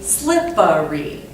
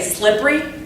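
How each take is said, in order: First: The word is said with three full syllables. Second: The word is squeezed into two syllables. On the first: "it's actually slippery. so that would have three syllables" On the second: "Some of us say"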